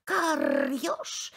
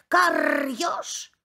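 First: Plain crow call before the shout; first call, held back; crow's first call, kept plain. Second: Higher, louder crow cry; crow shouting. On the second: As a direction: yell it at the fox. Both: Acted. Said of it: "кричит ему ворона".

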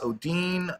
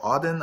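First: Odin as "oh-DEEN", long ee; alternative pronunciation. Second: Odin as "OH-din", short i; alternative pronunciation. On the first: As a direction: say Odin with a drawn-out "deen" ending. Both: Shown as a demonstration. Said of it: "how you wanna pronounce this".

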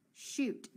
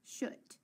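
First: Teacher blending shoot with a long oo. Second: Teacher trying the wrong short oo in shoot. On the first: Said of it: "Does shoot make sense". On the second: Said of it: "try it the other way". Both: Shown as a demonstration.

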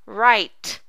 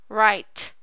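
No difference in how they are said.

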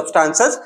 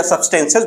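First: "substances" with a long open aa, sub-STAAN-ses; open "aa" pronunciation. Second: "substances" with an e sound, sub-STEN-ses; "e" vowel pronunciation. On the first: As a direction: say "substances" with an aa in the middle syllable. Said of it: "कुछ लोग इसको सब्सटेंस बोलते हैं". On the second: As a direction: say "substances" with an e in the middle syllable. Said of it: "बात एक ही है". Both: Shown as a demonstration.

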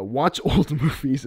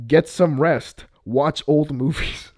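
First: Slow quote broken by a laugh. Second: Slow, loud deadpan doctor advice; slow, firm doctor advice. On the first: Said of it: "the doctor is saying". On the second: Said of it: "there's a doctor that tells Madame Web". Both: Retold or imitated.

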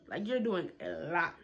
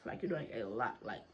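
First: Said in the usual way. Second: Much lower and softer, muttered aside; muttered under breath. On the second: Shown as a demonstration. Rolling her eyes at the teacher, much lower and softer mutter. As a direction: drop the voice and mutter it to yourself.

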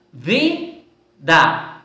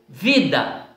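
First: "vida" in two beats, vi, pause, da; split into syllables. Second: Said in the usual way. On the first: Shown as a demonstration. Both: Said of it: "Separado, duas sílabas".

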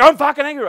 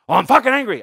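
First: Louder, higher angry burst; shouted denial of being angry; mock angry shout. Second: Mock angry. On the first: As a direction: bark it back like a riled drunk. Repeated angry quote. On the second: Voicing angry person.

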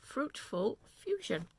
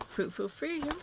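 First: Fruitful Fusion said slowly, each syllable placed with care; slow down and get Fruitful Fusion right; careful retry. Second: Fruitful Fusion said quickly, the name slightly fumbled; rushing Fruitful Fusion before correcting it; first try at the name. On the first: Knitter retries the shop's name, slowly and carefully. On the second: Knitter tries the yarn shop's name, says it quickly. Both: Shown as a demonstration. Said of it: "I can't say that right".

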